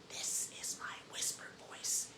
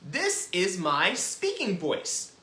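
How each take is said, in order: First: Hushed, unvoiced-breath whisper. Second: Said in the usual way. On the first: Shown as a demonstration. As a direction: demonstrate a very quiet whisper.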